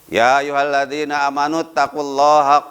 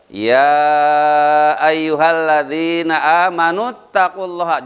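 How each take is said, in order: First: The opening "ya" vowel is cut short. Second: The opening "ya" vowel is held long. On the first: The speaker calls it wrong. "Contohnya sering saya dengar" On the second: The speaker calls it right. "ya-nya itu mad wajib mutasil harus dibaca panjang"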